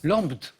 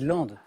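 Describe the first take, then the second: First: The name is pronounced following its spelling. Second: The name is pronounced in its accepted form. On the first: The speaker calls it wrong. "phonétiquement, quoi" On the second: The speaker calls it right. "en fait, c'est c'est Landes"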